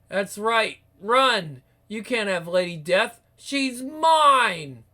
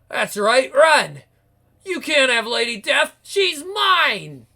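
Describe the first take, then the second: First: It is spoken in the previous narrating voice. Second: It is spoken in a new, distinct character voice. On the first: The speaker calls it wrong. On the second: The speaker calls it right.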